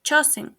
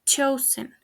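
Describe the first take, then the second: First: "chosen" as CHO-sing; "chosen" ending like sing; mispronounced. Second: "chosen" as CHOH-zən; correct pronunciation. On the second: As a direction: say "chosen" with a weak final schwa. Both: Shown as a demonstration. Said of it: "The correct pronunciation is".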